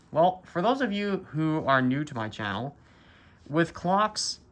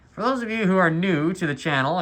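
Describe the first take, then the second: First: Talking through a face mask; muffled, mask over mouth. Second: Muffled through a mask, louder; talking through a face mask. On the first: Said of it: "I'm wearing a mask. That's why I sound muffled". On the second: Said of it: "we'll say this for the second time". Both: Real, not acted.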